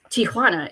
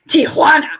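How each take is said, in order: First: The 'hua' syllable gets ordinary, unexaggerated stress. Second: The 'hua' syllable gets heavy, exaggerated stress. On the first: "it's not just Tijuana" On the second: "they put emphasis on the Hua"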